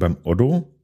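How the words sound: The name is said in a soft Franconian accent. "wir Franken täten ja eher sagen beim Otto"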